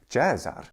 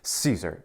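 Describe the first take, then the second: First: It is said in Italian ecclesiastical pronunciation. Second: It is said in English pronunciation. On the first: "In the Italian ecclesiastical pronunciation" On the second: "in English, we receive that name through French"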